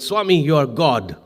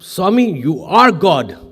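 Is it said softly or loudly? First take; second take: softly; loudly. First: It is said at normal volume, proudly. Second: It is said louder, to be heard better.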